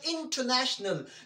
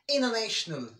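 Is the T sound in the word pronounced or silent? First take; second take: pronounced; silent. First: The T after the N is pronounced. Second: The T after the N is silent. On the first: The speaker calls it wrong. "That's wrong" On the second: The speaker calls it right. "We will pronounce as international"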